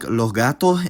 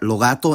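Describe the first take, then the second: First: Each final s becomes a breathy h sound. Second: Each final s is dropped entirely. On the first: "pronounced more like" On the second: "all the word final has disappeared"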